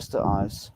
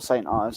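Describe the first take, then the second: First: The name is said as Sturt Eyes. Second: The name is said as Saint Ives. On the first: The speaker calls it wrong. "I shouldn't really say Sturt Eyes. That's not really correct" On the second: The speaker calls it right. "Or Saint Ives"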